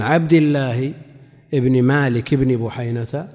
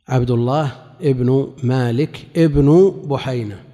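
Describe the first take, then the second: First: عبد الله ابن مالك ابن بحينة with both ابن said "ibni"; genitive endings. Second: عبد الله ابن مالك ابن بحينة slowly, both ابن said "ibnu"; nominative endings. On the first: Teacher shows students both ابن after عن عبد الله, genitive "ibni" endings. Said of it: "فكلاهما تابع لعبد الله". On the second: Teacher shows students both ابن following عبد الله, nominative "ibnu" endings. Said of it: "وعبد الله موقعه من الإعراب الرفع". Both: Shown as a demonstration.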